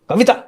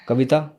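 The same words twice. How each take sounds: First: The name is shouted loudly. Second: The name is called at normal loudness.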